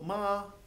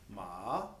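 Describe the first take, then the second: First: The pitch stays high and level. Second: The pitch dips down and comes back up. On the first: "a high flat tone" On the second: "kind of a dipping tone"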